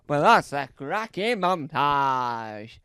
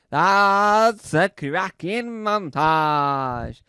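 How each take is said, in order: First: Said in the usual way. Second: Louder, slow that's a cracking montage; emphatic repeat. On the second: Shown as a demonstration. Repeating the praise for the montage, louder and slow. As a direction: lean hard into each word. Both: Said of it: "I'll say it again".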